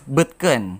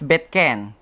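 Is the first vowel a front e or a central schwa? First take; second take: central schwa; front e. First: The first vowel is a central schwa sound. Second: The first vowel is a front e sound. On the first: The speaker calls it right. "rather articulated as" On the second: The speaker calls it wrong. "It shouldn't be pronounced as"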